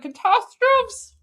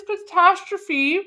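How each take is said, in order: First: Catastrophes as "kuh-TAH-strofes", high and drawn out; mock it: Catastrophes with a silent e, ending "-strofes"; mocked mispronunciation. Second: Catastrophe ending in a clear "-fee"; correct pronunciation. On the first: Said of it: "He doesn't know how to". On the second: Shown as a demonstration. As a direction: say catastrophe in four syllables, high, final "-fee" sounded. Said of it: "The word is catastrophe".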